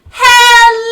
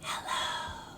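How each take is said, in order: First: It is said loudly. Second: It is said quietly.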